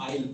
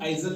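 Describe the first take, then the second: First: No s or z sound is heard. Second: A z sound is heard before the l. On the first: The speaker calls it right. "एस को silent रखना है, इसको हम आइल पढ़ते हैं" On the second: The speaker calls it wrong. "इसको हम आइजल नहीं पढ़ते हैं"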